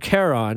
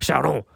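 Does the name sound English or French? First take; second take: English; French. First: The name is said with an English pronunciation. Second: The name is said with a French pronunciation. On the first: "which I always thought was pronounced Charon" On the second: "they pronounce it in the movie Charon. Very French"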